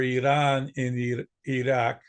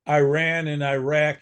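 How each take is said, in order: First: The first vowels sound like 'ee'. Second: The first vowels sound like 'eye'. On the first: This is the native pronunciation. The speaker calls it right. "Their real names are Iran and Iraq" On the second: This is the anglicized pronunciation. The speaker calls it wrong. "we pronounce countries like Iran and Iraq improperly"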